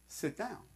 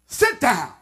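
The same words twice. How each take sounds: First: Much softer, gentle request; soft inviting tone; gentle invitation. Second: Curt order, a bit louder; firm order to sit; stern command. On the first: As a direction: invite them kindly to sit. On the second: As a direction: snap it as a command. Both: Shown as a demonstration. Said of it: "because of the tone of my voice".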